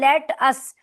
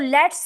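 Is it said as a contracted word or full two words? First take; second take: full; contracted. First: It is said as two full separate words. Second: It is said as one contracted short word. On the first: "actually ये है लेट अस" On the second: "तो इसको लेट्स बोलते हैं"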